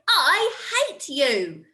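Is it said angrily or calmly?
angrily. It is said angrily, like shouting.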